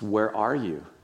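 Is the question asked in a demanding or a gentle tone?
gentle. It is asked in a gentle, caring tone. The asker invites the listener to reflect on why they hid. The speaker calls it right.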